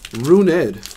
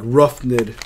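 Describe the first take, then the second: First: The first syllable sounds like 'roo'. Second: The first syllable sounds like 'rough'. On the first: The speaker calls it right. "Runed, that's how you pronounce it" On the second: The speaker calls it wrong. "I always want to say like Roughned"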